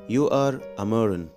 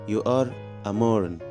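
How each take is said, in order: The two takes are said the same way.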